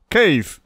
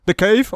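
First: Slow, pointed stress on "cave"; air-quoted CAVE. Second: Said in the usual way. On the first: Shown as a demonstration. Asking Roger which cave he means, sceptical air quotes. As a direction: set "cave" apart, drawn out, as if in quotes. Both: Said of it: "air quotes".

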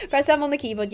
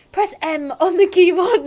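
First: Said in the usual way. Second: Higher, louder granny; hammed-up granny giving instructions. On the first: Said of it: "No, okay, that was instructions". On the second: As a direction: read it out in a put-on granny voice. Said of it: "I can do my granny voice".

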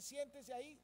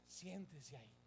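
First: Raised-pitch instruction with a lifted ending; quoted order. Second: Low, soft, settled delivery; quiet compliance advice. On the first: Usher telling a church member to sit, directing. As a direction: give it as someone else's instruction. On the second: Preacher advising a member to just sit, low and submissive. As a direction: drop right down, as if simply complying. Advice to simply obey the order. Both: Acted.

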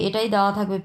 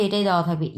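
The two takes are said the same way.

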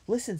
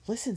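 First: Listen said high and loud; sharp listen. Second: Said in the usual way. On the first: A narrator's reading. Violet echoing Benny, Listen higher and louder. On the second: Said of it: "said Benny suddenly".

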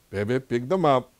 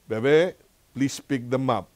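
First: Put-on louder, slower order to a toddler; insistent order. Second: Put-on higher, lilting call to a toddler; coaxing request. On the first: Grandpa to granddaughter who ignored him, insistent. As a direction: press the request, drawing it out. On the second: Grandpa asks toddler granddaughter to tidy toys, coaxing. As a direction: coax a little one, voice lifting on the name.

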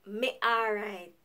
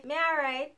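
First: Jamaican reply, slower. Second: Jamaican reply. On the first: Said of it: "which is". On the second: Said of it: "we just reply and say". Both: Shown as a demonstration.

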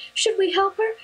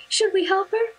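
First: Put-on high child voice, stress on "her", rising at the end; little boy's voice. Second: Put-on high child voice, stress on "Should", rising at the end; little boy's voice. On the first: Little boy begging his mom to help, high voice stressing "her". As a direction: kid asking, leaning on "her". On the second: Little boy repeating his plea to mom, high voice stressing "Should". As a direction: kid pleading, hitting "Should" first. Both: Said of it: "looked up to his mom and goes".

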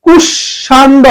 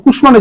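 First: কুষাণ্ড as "kushshando", m left out; expected doubled sh. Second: কুষ্মাণ্ড as "kush-mando"; sounded m. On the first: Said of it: "হওয়ার কথা ছিল". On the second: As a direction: say কুষ্মাণ্ড with sh then a clear m. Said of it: "কিন্তু হবে". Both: Shown as a demonstration.

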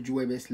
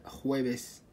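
First: جويبس with a j sound, the wrong way; wrong pronunciation. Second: خويبس with a throaty kh at the start; correct pronunciation. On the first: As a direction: say جويبس with j as the mistake. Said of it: "ما نقول جويبس". (جويبس بصوت الجيم، النطق الخاطئ) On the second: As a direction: stress the kh in خويبس, not j. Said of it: "لا، خويبس". (خويبس بصوت الخاء الصحيح) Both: Shown as a demonstration.

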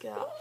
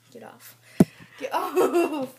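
First: Said in the usual way. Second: Laughing get off. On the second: Real, not acted. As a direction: say it through a laugh.

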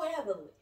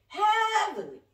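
First: Said in the usual way. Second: HEAVILY drawn out, high and loud; emphatic HEAVILY. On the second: Real, not acted. Preacher repeats how the Spirit is moving, emphatic HEAVILY. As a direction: belt out HEAVILY with a soaring first syllable.

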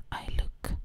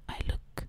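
Both takes have the same delivery.

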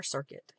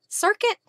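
First: Circuit said low and falling, softer, as the final answer; settled circuit. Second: Circuit? with a high, doubtful rising tune; questioning circuit. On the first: Crafter deciding the word after spelling it, low and settled. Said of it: "C I R". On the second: Crafter double-checking the word on her card, asking it rising. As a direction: ask Circuit? as if unsure of the word. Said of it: "Is it circuit or cricket?". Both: Shown as a demonstration.

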